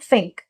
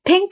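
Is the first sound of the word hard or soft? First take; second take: soft; hard. First: The first sound has the tongue between the teeth. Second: The first sound is a hard stop. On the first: The speaker calls it right. "वो टंग teeth के बीच में लाकर कहते हैं" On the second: The speaker calls it wrong. "थिंक नहीं है वो"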